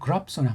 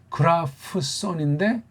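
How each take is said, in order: First: The p and s are joined into one sound. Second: The p and s are said as separate sounds. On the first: "이렇게 두 개를 묶어서" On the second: "이렇게 그라프손인데"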